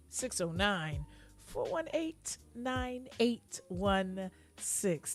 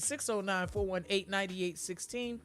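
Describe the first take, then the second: First: Slow, polished phone-answering voice; telephone voice. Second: Said in the usual way. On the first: Shown as a demonstration. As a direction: read the number out like a receptionist. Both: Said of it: "That's my telephone voice".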